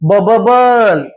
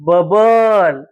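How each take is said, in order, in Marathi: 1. मधला ब चा आवाज दोनदा उच्चारला जातो. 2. मधला ब चा आवाज एकदाच उच्चारला जातो. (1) "स्पेलिंग नुसार आपण वाचलं" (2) "एकदाच ब उच्चार करायचा आहे"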